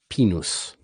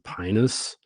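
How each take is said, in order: First: It is said with the Latin pronunciation. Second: It is said with the American pronunciation. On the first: "In Latin, that's pronounced pinus" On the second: "Americans pr- pronounce it pinus"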